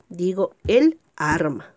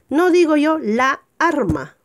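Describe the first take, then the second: First: El arma, said slowly and clearly; correct article. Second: La arma, the wrong form; wrong article. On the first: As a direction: say el arma, stressing el. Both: Shown as a demonstration.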